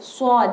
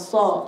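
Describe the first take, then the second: First: The sound is overdone and exaggerated. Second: The sound is plain and ordinary. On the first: The speaker calls it wrong. "jangan terlalu so" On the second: The speaker calls it right. "dia itu biasa aja so"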